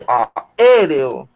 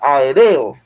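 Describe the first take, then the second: First: The stress falls on the third-to-last syllable. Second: The stress falls on the second-to-last syllable. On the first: The speaker calls it right. "esta es en esta E. Yo digo aéreo" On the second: The speaker calls it wrong. "yo diría aéreo, porque estoy dándole el acento a, a esa, a esa sílaba de. Y no es así"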